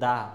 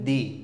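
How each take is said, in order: First: The word ends in a short 'uh' vowel. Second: The word ends in a long 'ee' vowel. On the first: "consonant sound এর আগে এর উচ্চারণ হবে দা" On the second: "ভাওয়াল সাউন্ডের আগে এর উচ্চারণ হবে, টি এইচ এর উচ্চারণ হবে দি"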